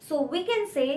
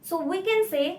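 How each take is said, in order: No difference in how they are said.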